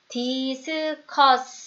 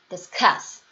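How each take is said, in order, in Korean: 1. 두 음절에 같은 힘을 줘요. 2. 첫 음절은 약하고, 두 번째 음절이 더 강해요. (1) "이렇게 다 똑같이 소리를 내지 않고요" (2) "요런 느낌이죠"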